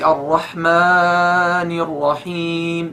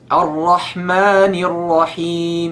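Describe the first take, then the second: First: One long vowel is stretched much longer. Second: Both long vowels are held equally short. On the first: The speaker calls it wrong. "You cannot say Ar-Rahman Ar-Rahim. No" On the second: The speaker calls it right. "So here there's only two harakat"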